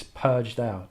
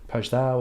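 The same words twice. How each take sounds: First: "Purge thou" with both words stressed equally; "Purge thou" as a spondee, both strong; even spondee stress. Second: "Purge thou" with the weight on "thou"; "thou" stressed, "Purge" unstressed; wrong stress on thou. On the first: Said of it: "Two stressed syllables called a spondee". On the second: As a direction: lean on "thou", let "Purge" go light. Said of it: "It's not, um, "Purge thou" or". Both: Shown as a demonstration.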